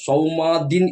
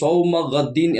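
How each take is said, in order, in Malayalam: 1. 'gh' ശബ്ദം ഒഴിവായി ലയിക്കുന്നു. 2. 'gh' ശബ്ദം വ്യക്തമായി ഉച്ചരിക്കുന്നു. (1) "അവിടെ ശരിയാവുകയില്ല" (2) "സൗമ ഗദ്ദീൻ എന്നാണ് പറയേണ്ടത്"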